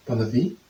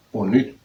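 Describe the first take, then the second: First: "Bonne nuit" with a v-like sound, ending "vee"; transliterated reading. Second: "bonne nuit" with a clear n before the final vowel; own reading. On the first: Learner reading French phrase from transliteration, transliterated pronunciation. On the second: Learner showing how they would read it, own pronunciation. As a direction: say "bonne nuit" roughly as "bon-nwee". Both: Shown as a demonstration. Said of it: "I would read bonne nuit".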